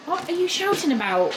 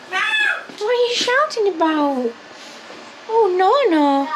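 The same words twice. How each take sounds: First: Said in the usual way. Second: Much higher, slow cooing question; baby talk to dog. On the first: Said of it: "first take to dog". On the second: Acted. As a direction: coo at the noisy dog.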